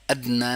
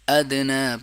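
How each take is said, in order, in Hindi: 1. d सपाट बोला जाता है, उसमें कोई उछाल नहीं। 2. d को गूँजती उछाल के साथ छोड़ा जाता है। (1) "अदना ना पढ़ें" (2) "कलकला हो रहा है"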